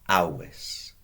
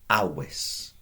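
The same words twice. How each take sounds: The two takes are said the same way.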